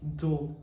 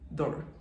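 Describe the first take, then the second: First: The vowel is drawn out long. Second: The vowel is kept short. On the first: "in British accent, they do longer, like door" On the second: "in American accent, it's kind of shorter. They say door"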